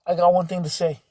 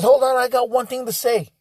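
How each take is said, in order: First: Said in the usual way. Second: Lightly voiced guest demanding attention; imitating the gentleman. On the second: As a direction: announce it like he's about to make a toast. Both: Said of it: "He says".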